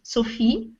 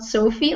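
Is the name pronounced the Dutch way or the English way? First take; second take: Dutch; English. First: The name is said with a Dutch pronunciation. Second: The name is said with an English pronunciation. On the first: "in Dutch we say Sophie" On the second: "and not Sophie, like in English"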